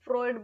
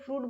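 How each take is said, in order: First: The name ends with an 'oid' sound. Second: The name ends with an 'oot' sound. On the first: "कुछ फ्रॉइड बोलते हैं" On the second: "कुछ लोग फ्रूट बोलते हैं"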